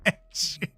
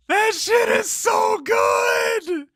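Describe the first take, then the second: First: Said in the usual way. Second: Slow, high, loud yell of delight; ecstatic drawn-out shout. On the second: Real, not acted. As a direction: stretch it out, shouting with joy. Ecstatic praise of own work.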